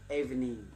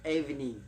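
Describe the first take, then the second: No difference in how they are said.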